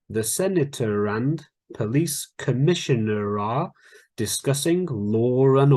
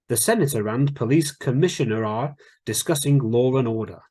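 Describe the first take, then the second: First: It is said more slowly. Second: It is said at normal speed.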